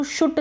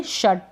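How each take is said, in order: First: शुट with an oo, like "shoot"; wrong pronunciation. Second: Said in the usual way. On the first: Shown as a demonstration. Teacher warns learners off a misreading, mispronounced शुट. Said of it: "उसको शुट नहीं पढ़ेंगे". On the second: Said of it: "आप पढ़ेंगे शट".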